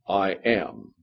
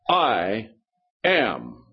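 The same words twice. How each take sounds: First: It is said plainly, without extra force. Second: It is said with strong, heavy emphasis. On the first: A simple, ordinary statement. "Let me give you the difference in inflection" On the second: An emphatic statement, as when the two words are used together. "When those two words are together, it's like this"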